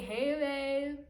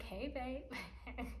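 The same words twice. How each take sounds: First: Loud, higher, drawn-out lovey-dovey greeting; gushing greeting. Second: Higher-pitched, light 'hey, babe'; sweet greeting. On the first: Re-enacting picking up the boyfriend's call, gushing greeting. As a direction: belt out an exaggerated pet-name hello. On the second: Picking up the boyfriend's call, sweet greeting. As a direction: greet a partner sweetly on the phone. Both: Retold or imitated.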